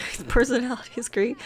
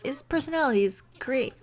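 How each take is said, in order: First: Barely saying it. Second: Higher-pitched, strained defence of him; barely convincing praise. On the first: Shown as a demonstration. Narrator showing Rosie can barely say it, amused. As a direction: laugh slipping into the praise. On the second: Acted. Rosie defending the professor to Julie, barely convincing praise. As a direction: push the praise out, not quite convinced. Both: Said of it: "She can barely say it".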